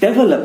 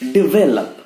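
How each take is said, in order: First: The first syllable sounds like 'deh'. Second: The first syllable sounds like 'dih'. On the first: The speaker calls it wrong. "डेवलप नहीं" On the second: The speaker calls it right. "It's डिवेलप"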